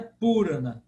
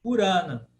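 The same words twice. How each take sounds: First: Purana stressed on first-syllable PU; wrong stress on PU. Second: Purana stressed on a long second syllable RA. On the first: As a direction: punch PU in Purana, short RA. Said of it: "Não é Purana". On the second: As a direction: Purana with the weight in the middle. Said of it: "sílaba é que é longa". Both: Shown as a demonstration.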